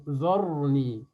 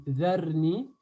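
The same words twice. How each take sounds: First: "dharni" with a thick r and backed "a", like "zorni"; the right option, "dharni" made emphatic; heavy ra. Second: "dharni" with a light r and fronted "a", like "zerni"; the wrong option, "dharni" thinned. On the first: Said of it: "il est mufakham". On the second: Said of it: "Est-ce que je dis". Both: Shown as a demonstration.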